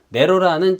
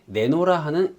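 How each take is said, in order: First: The second syllable begins with an r sound. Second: The second syllable begins with an n sound. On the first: The speaker calls it right. "또 한 번은 내로라 하는 이라고 읽었는데" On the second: The speaker calls it wrong. "한 번은 내노라 하는 이라고 읽고"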